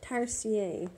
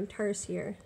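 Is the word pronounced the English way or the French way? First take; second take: French; English. First: The word is said with a French pronunciation. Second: The word is said with an English pronunciation.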